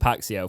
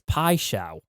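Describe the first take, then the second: First: The name ends in an 'ee-oh' sound. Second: The name ends in a nasal 'ow' sound. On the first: The speaker calls it wrong. "that doesn't even make sense when you read it" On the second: The speaker calls it right. "This is how you meant to pronounce it"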